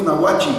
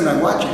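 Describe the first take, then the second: First: "Nahuachi" ending in an EE sound; Nahuachi with final I. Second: "Nahuache" ending in a clear E; the written form, "Nahuache" closed on E; Nahuache with final E. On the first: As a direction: local form, "Nahuachi" closed on I. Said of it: "todos le decimos Nahuachi". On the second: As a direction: say "Nahuache" with E, not I at the end. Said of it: "pero nadie le dice Nahuache". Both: Shown as a demonstration.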